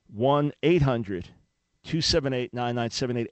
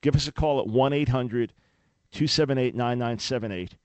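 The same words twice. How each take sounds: First: "One eight hundred" spelled out very slowly, each digit weighted; slow, deliberate number. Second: Said in the usual way. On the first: Shown as a demonstration. Host repeats the donation line to radio listeners, slow and deliberate. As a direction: give each digit its own beat so listeners can write it down. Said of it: "repeats phone number slowly". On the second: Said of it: "reads phone number".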